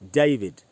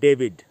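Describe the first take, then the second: First: It is said with a British accent. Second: It is said with an Indian accent. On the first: The speaker calls it right. "तो आपको पढ़ना चाहिए जयविज" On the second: The speaker calls it wrong. "हम लोग पढ़ते हैं डेविड"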